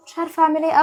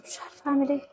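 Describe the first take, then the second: First: Said in the usual way. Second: Soft, faraway murmur; quiet lost murmur; helpless murmur. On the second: Acted. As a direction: say it almost to herself, lost. Helpless, repeating herself.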